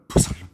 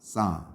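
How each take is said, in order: First: Both the P and L sounds are pronounced. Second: Both the P and L sounds are silent. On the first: The speaker calls it wrong. "어떤 사람은 푸살름" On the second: The speaker calls it right. "P도 묵음이고요. L도 묵음이에요"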